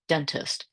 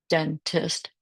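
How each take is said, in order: First: Said in the usual way. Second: "dentist" in two separate beats, den, tist; split into syllables. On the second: Shown as a demonstration. Teacher modelling decoding, "dentist" syllable by syllable. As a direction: break "dentist" with a gap after den. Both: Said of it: "two consonants divide between them".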